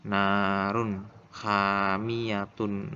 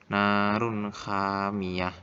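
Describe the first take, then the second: First: "hamiyatun" with final -tun sounded; very slow recitation, closing "hamiyatun" on tun; long held vowels, "hamiyatun" said in full; full ending pronounced. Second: "hamiyah" ending in h; very slow recitation, stopping on "hamiyah" without tun; long held vowels, "hamiyah" cut to a final h; wakof stop. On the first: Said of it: "lafalnya gini". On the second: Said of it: "cara bacanya yang benar yaitu wakof". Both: Shown as a demonstration.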